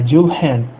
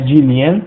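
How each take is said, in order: First: The L and H are sounded separately. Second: The L and H merge into one palatal sound. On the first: The speaker calls it right. "Dil, né? E Hen, então é Jill Hen" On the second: The speaker calls it wrong. "não é Dilien"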